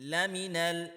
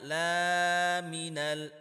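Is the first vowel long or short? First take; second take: short; long. First: The first vowel after the l is kept short. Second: The first vowel after the l is drawn out long. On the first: The speaker calls it right. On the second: The speaker calls it wrong.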